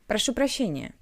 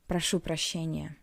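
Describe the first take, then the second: First: It sounds unfinished, as if more words follow. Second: It sounds solid, final and serious. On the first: The speaker is interrupting and will go on talking. "We usually sound like we are going to say something else after our apology" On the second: The speaker sincerely apologizes for something unpleasant. "This should sound solid and serious"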